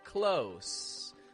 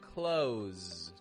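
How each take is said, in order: First: The word ends with a voiceless hissing S sound. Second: The word ends with a voiced buzzing Z sound. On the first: The speaker calls it wrong. "It's not a s" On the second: The speaker calls it right. "but it's a zzz"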